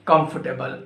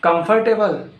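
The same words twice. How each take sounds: First: "comfortable" as KUMF-tuh-bul; corrected COMFORTABLE. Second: "Comfortable" as kum-FOR-TAY-bul, pitched higher; wrong COMFORTABLE. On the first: Teacher correcting learners, "comfortable" said as KUMF-tuh-bul. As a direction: say "comfortable" with no R in the middle. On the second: Teacher quizzing learners on "Comfortable", higher, with FORT sounded. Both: Shown as a demonstration. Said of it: "No, it's not comfortable".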